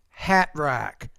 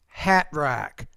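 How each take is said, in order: First: The T is replaced by a glottal stop. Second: The same.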